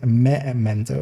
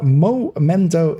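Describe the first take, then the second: First: The first syllable sounds like 'meh'. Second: The first syllable sounds like 'mo'. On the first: The speaker calls it right. "it is memento. It is with an e" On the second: The speaker calls it wrong. "it's not momento"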